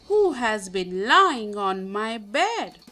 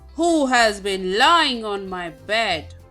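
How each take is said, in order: First: Mother Bear's voice is medium-sized. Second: Father Bear's voice is very loud.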